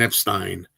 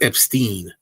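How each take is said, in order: First: The last syllable sounds like stine. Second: The last syllable sounds like steen. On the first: This is how the man himself said his name. The speaker calls it right. "He liked to pronounce his name Brian Epstein ... So Stein is correct" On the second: This is not how the man himself said his name. The speaker calls it wrong. "not Epstein ... Steen is not"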